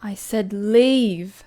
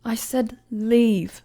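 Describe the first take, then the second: First: Louder, very slow, final warning; stern command. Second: Louder, very slow, ice-cold order; stern command. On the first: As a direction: lean into the word leave. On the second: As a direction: drop each word like a verdict. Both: Acted. Queen dismissing a presumptuous commoner, stern.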